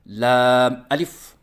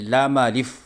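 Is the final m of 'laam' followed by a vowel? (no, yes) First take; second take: no; yes. First: The m of laam is closed with no vowel. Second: The m of laam is followed by an a vowel. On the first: The speaker calls it right. "लाम अलिफ पढ़ने का तरीक़ा" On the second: The speaker calls it wrong. "बच्चे इसको ज़बर पढ़ते हैं"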